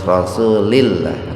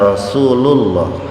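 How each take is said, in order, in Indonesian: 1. Vokal sebelum lah terakhir adalah i. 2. Vokal sebelum lah terakhir adalah a. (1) "harus Rasulillah" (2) "nggak bisa ingda Rasulullah"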